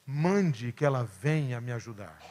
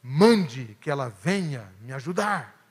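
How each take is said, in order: First: Firm, soft-spoken command, not a request; almost an order. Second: Said in the usual way. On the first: Retold or imitated. Martha asking Jesus to send Maria, a mild order. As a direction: tell him to send her sister, lightly insistent. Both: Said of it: "quase em tom de ordem".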